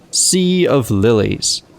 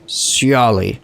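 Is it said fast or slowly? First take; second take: slowly; fast. First: It is said slowly, word by word. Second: It is said quickly, run together.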